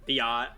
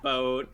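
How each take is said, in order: First: It is said as two syllables, bee-ot. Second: It is said to sound like the word boat. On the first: "biot's correct" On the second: "other people call it uh, like boat"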